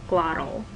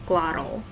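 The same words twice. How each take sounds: First: The middle consonant is a glottal stop. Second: The middle consonant is a glottal stop.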